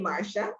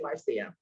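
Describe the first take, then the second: First: The name is pronounced the usual American way. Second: The name is pronounced the Caribbean way. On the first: This is how most Americans say the name. "most Americans say Marsha" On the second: This is how the name's owner says it. "I'm from the Caribbean, and say Marcia"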